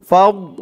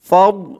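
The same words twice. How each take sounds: No difference in how they are said.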